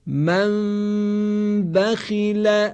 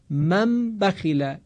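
First: «من بخیل» with the m of «من» hidden, lips barely touching, nasal hum held two beats; hidden m with ghunna. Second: «من بخیله» with the m of «من» fully closed and plainly sounded; clear m, no ikhfa. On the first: Teacher showing students the correct ikhfa in «من بخیل». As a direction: let the m of «من» hum through the nose, lips slightly open, slowly. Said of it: "توجه کنید". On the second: Quran teacher showing the wrong way, m fully pronounced. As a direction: say «من» with lips shut firmly on the m before «بخیله». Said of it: "اینجا میم کاملاً اظهار شد".

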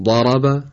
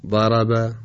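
First: ضرب with a heavy, dark, emphatic vowel; ضرب said heavy and full; with isti'la. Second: ضرب with a light, thin front vowel; ضرب said light like plain Persian; without isti'la. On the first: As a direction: raise the back of the tongue on ضرب. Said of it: "با استعلا". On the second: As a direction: flatten ضرب, no heaviness. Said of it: "بدون استعلا". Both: Shown as a demonstration.

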